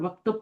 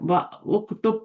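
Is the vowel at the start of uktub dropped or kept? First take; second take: dropped; kept. First: The opening vowel drops, the words join. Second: The opening vowel stays, the words stay apart. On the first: The connecting hamza is silent after wa. "उसने गिरा दिया और वक्तुब पढ़ा गया है" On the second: The hamza would be a real one. "अगर ये असली होता ... व उक्तुब पढ़ती"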